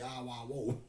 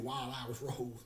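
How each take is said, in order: First: The consonants are dropped into slurred vowel sounds. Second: Each word is pronounced fully and clearly. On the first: Someone else always said it this way. "but he would say Ah Wah Wo" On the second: This is the intended name. "he be trying to say Wild Irish Rose"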